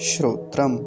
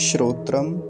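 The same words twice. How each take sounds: No difference in how they are said.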